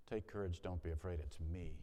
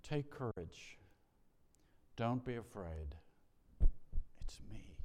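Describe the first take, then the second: First: Said in the usual way. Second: Tender words of Jesus trailing into a hush; gentle fading to a whisper. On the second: Acted. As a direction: comfort them, let it sink to a whisper. Jesus's words, first telling.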